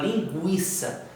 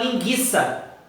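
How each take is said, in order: First: The word is said with a 'u' glide. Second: The word is said without a 'u' glide. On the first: The speaker calls it right. "você fala linguiça, eu tenho o som do U" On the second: The speaker calls it wrong. "Você não fala linguiça"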